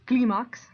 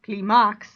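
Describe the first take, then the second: First: The stress is on the first syllable. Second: The stress is on the last syllable. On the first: The speaker calls it right. "the I gets the, the stress" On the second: The speaker calls it wrong. "typically it would be"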